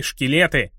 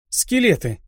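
First: Шкелеты with ш in place of с; goblin mispronunciation. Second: Скелеты with a clear с; correct pronunciation. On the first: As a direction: say шкелеты, lisping the first sound as ш. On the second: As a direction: correct it firmly: Скелеты, crisp с. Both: A narrator's reading. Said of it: "поправила его Рианна".

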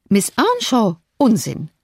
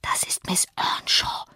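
First: Incredulous question, then dismissive drop; exclaimed. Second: Slow, voiceless whisper. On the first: Lady rejecting her son's claim, exclaiming. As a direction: cry out in mild disbelief. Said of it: "rief die Dame". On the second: Boy telling his mother who the girl is, whispering. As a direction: whisper it slowly, as a secret. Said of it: "flüsterte er seiner Mutter zu". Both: A narrator's reading.

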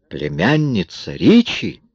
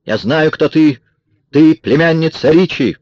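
First: Slow, incredulous question; exclaimed question. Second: High, loud accusing cry; shouted accusation. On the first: Amis reacts to Kara's accusation, exclaiming in surprise. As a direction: echo it slowly as a startled question. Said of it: "воскликнул Эмис". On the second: Kara with a pistol exposes Marion, shouting. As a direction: fling the accusation out, pitched high. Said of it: "закричала она Марион". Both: A narrator's reading.

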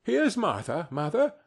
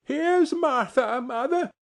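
First: Put-on higher girl's voice; lightly lifted, girlish greeting; girl announcing herself. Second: Put-on very high, slow, excited child voices; high-pitched gleeful child's cry; children crying out. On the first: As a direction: announce your arrival as a young girl. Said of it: "said a girl, appearing as she spoke". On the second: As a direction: shout the news like two small children. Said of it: "cried the two young Cratchits". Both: A narrator's reading.

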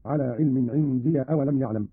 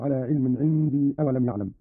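First: Short -ya on "عندي", joined to the next word; fatha on the ya. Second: Said in the usual way. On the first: Shown as a demonstration. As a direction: say "عندي" as indiya. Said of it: "بفتح الياء وصلا هكذا". (فتح ياء "عندي" وصلًا)

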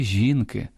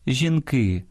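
First: "жінки" stressed on the first syllable, жІнки. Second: "жінки" stressed on the last syllable, жінкИ. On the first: Host showing stress after numerals, "жінки" with first-syllable stress. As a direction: lean on the І of "жінки". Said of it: "зберігають наголос однини". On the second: Host showing the plural, "жінки" with final-syllable stress. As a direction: lean on the И of "жінки". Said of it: "у множині змінюють наголос". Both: Shown as a demonstration.

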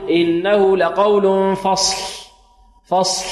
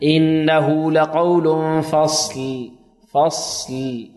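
First: Slow recitation with the final ل of فصل left voiceless; faulty فصل with the lam inaudible; silent lam mistake. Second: Very slow recitation, فصل with still ص and audible voiced ل; drawn-out tajweed recitation, both final consonants of فصل sounded; correct voiced lam. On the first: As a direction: end فصل on a voiceless puff, tongue placed for ل. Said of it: "لا ينطق اللام". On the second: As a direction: finish فصل on a ringing ل, no vowel after ص. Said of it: "بدون تحريك، تسكين الصاد". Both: Shown as a demonstration.

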